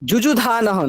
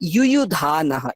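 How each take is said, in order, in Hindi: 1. यह शब्द J की ध्वनि से शुरू होता है। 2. यह शब्द Y की ध्वनि से शुरू होता है। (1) "যুযুধানঃ নয়" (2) "ইউ ইউ"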